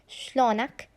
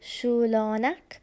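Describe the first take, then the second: First: The phrase is said fast. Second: The phrase is said slowly.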